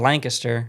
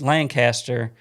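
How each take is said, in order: First: It is said in the locals' pronunciation. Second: It is said in the speaker's usual pronunciation.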